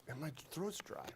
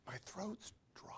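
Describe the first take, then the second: First: Said in the usual way. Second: Throats whispered on a rising tune; whispering. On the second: Real, not acted. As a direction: whisper throats with a dry rasp.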